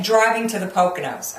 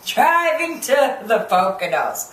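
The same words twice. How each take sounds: First: Said in the usual way. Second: "Driving to the Poconos" stretched out slowly, word by word; mocking drawn-out repeat.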